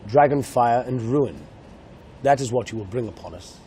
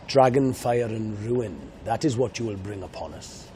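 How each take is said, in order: First: Grave film line in a posh English accent. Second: Grave film line in a Welsh accent. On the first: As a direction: read the dragon line like an Englishman, solemn. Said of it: "if I spoke in English, it would be". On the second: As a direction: read the dragon line as a Welshman, solemn. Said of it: "That's my Welsh accent". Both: Shown as a demonstration.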